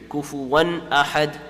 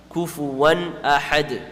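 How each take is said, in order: First: The n sound is pronounced fully and clearly. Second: The same.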